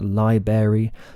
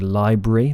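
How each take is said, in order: First: The R sound after the B is dropped. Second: An R sound follows the B. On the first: The speaker calls it wrong. "which is technically incorrect" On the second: The speaker calls it right. "because it has an R after the B"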